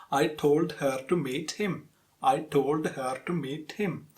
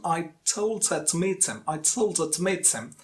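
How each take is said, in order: First: Equal weight on "I told her to meet him"; full "her", "to" and "him", evenly stressed; syllable-timed rhythm. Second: "told" and "meet" stressed, "her" and "him" reduced; stress-timed rhythm. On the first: Teacher demonstrating the faulty rhythm, syllable-timed. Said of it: "With syllable timed rhythm". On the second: Teacher recalling the example, stress-timed weak forms. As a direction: link h-less "her" and "him" onto the verbs. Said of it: "the first example that we studied". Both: Shown as a demonstration.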